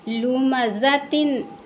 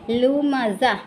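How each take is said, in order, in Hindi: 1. यह शब्द -tin की आवाज़ से खत्म होता है। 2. यह शब्द -ah की आवाज़ से खत्म होता है। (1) "वैसे ही लुमज़तिन" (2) "स्टॉप करने की सूरत में क्या पढ़ेंगे"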